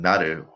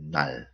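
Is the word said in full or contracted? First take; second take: full; contracted. First: The word is said in its full form. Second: The word is said in a short contracted form. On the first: "Instead of saying" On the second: "We can make it short like this way"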